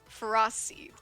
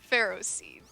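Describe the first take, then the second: First: The first part does not sound like 'Ferris'. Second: The first part sounds like 'Ferris'. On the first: This is the official pronunciation. "the official pronunciation is Ferocity ... No, it is not like Ferris" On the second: This is how most people say it. "most people say Ferroseed"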